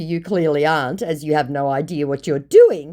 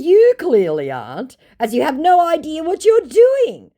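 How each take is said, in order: First: Said in the usual way. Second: High, loud scornful put-down; mocking high-pitched scolding; sassy retort. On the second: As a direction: slap him down with scorn. Her sassy retort to the scammer.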